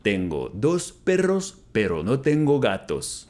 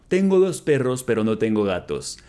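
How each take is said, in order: First: Slow, careful, clearly spaced words; slow model repeat. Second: Said in the usual way. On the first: Shown as a demonstration. Teacher repeating Spanish for students, slow and careful. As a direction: say it slowly for learners to copy. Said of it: "slow repeat of model". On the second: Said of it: "repeated model sentence".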